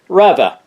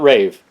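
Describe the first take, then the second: First: The name sounds like 'Reva'. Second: The name sounds like 'rave'. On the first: The speaker calls it right. "That's right, Reva" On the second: The speaker calls it wrong. "not rave"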